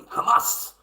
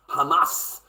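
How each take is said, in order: First: Hamas with a breathy throaty h, dark a; proper pronunciation. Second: Said in the usual way. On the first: Shown as a demonstration. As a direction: say Hamas the Arabic way, throaty at the start. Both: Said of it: "You gotta say it properly".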